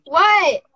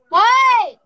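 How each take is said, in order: First: A sudden loud, higher what; loud startled question. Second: A much higher, very loud what; jolted, she calls out sharply; loud high startled question; louder startled what. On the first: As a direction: caught off guard, she blurts it out. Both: Real, not acted. Startled by someone behind her.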